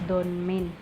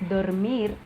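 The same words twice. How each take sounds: Both takes have the same delivery.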